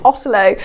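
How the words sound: It has a British accent with a crisp T.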